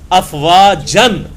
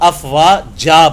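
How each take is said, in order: First: The word ends with an n sound. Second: The word ends with a long vowel. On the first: "हालांकि लफ्ज क्या होता है?" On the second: "लेकिन वो अफवाजा बन जाता है"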